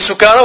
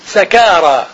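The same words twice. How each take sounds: First: The first vowel is u, sukara. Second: The first vowel is a, sakara. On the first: "بضم السين" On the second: "وفتحها"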